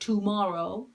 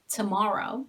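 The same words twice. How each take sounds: First: The first vowel is a full o sound. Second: The first vowel is a weak schwa sound. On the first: The speaker calls it wrong. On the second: The speaker calls it right.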